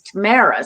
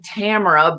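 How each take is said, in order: First: The name is said the Canadian way. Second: The name is said the non-Canadian way. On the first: This is how Canadians say her name. "my Canadian pronunciation is Tamara" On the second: This is how she says her own name. "I pronounce my name Tamara"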